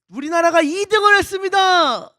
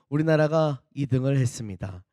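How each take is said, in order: First: It sounds proud, like a great achievement. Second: It sounds regretful, like a letdown. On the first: Second place is a great achievement. "뭔가 대단한 어떤 성과를 올린 것처럼 들리죠" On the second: First place was expected, so second is a letdown. "이 등을 했다 뭐 이렇게 아쉽게 느껴지는"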